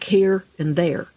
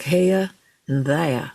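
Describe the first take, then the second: First: The R sounds are pronounced after the vowels. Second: The R sounds are dropped after the vowels. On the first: "versions where they say the R" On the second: "a non-rhotic Southern dialect, where those folks do not say the R sound"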